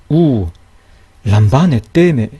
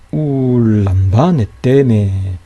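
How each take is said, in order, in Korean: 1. 첫 단어가 쉼 때문에 끊겨요. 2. 첫 단어가 바로 다음 단어로 이어져요. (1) "이렇게 읽으면 안 돼요" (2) "울 이렇게 발음이 돼요"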